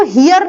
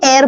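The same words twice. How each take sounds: First: हियर with the H sounded at the start; wrong H sounded. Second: एयर starting straight on the vowel; silent H. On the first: Teacher showing how it is not said, H pronounced in हियर. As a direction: say हियर with an audible H before the vowel. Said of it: "हियर नहीं बोला जाता". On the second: Teacher showing how it is pronounced, H silent in एयर. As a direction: say एयर with no H sound at all. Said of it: "pronounce करते हो तो एयर बोलते हैं". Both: Shown as a demonstration.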